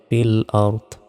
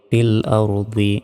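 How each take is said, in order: First: The final word ends on a bare consonant. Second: The final word ends with a short vowel. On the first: The reader stops at this word. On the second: The reading continues without stopping.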